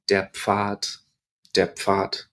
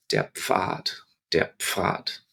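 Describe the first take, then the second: First: Pfad voiced with a hard T at the end, said fat. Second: Pfad softly, a popped pf then fad; German Pfad whispered. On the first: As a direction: clip the D of Pfad into a T. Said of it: "D ... can sound a little bit like T". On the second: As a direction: pop the pf of Pfad gently with breath. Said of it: "the word here". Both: Shown as a demonstration.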